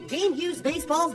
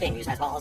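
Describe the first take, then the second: First: It is spoken at an ordinary, unhurried pace. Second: It is spoken very fast, like an auctioneer.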